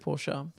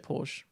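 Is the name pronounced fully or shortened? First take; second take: fully; shortened. First: The name is pronounced fully and carefully. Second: The name is pronounced in a shortened, relaxed way. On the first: This is the official pronunciation. The speaker calls it right. "I know it's meant to be Porsche" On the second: This is the casual everyday pronunciation. The speaker calls it wrong. "I just say Porsche because I'm lazy"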